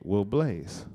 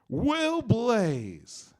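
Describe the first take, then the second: First: It is said in his normal voice. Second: It is said in a game show host voice.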